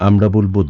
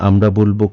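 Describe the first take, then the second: Both takes have the same delivery.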